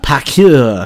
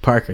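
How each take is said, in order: First: The name is said with a French accent. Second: The name is said with a plain English accent.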